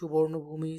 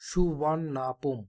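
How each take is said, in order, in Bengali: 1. নামটি 'bhumi' ধ্বনি দিয়ে শেষ হয়। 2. নামটি 'pum' ধ্বনি দিয়ে শেষ হয়।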